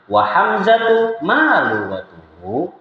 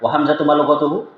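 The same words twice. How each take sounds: First: There is a pause after hamzatu. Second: It runs together with no pause. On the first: The speaker calls it right. "kalau butuh dipisah ya dipisah" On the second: The speaker calls it wrong. "Diborong satu paket. ... Enggak enak"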